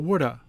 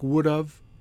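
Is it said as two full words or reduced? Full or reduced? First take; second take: reduced; full. First: The words blend into a quick reduced 'woulda'. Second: Both words are said fully and distinctly.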